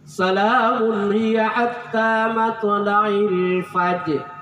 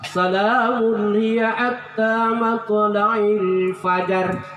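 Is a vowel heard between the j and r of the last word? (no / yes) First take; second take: no; yes. First: No vowel is sounded between the j and r. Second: A vowel is sounded between the j and r. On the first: The speaker calls it right. "Jadi jangan lagi dibaca fajar" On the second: The speaker calls it wrong. "memang tidak sempurna"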